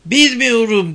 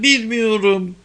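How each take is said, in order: First: High, loud frantic cry; shouting. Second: High, strained repeated cry; shouting. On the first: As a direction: cry it out in panic. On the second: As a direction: cry it again, desperate. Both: A narrator's reading. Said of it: "diye bağırdı Ayda".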